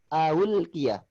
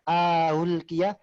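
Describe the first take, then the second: No difference in how they are said.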